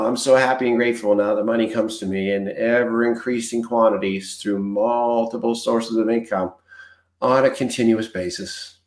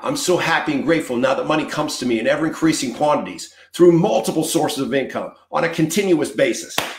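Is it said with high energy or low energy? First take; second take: low energy; high energy. First: It is said flatly with little energy. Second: It is said with high energy and conviction.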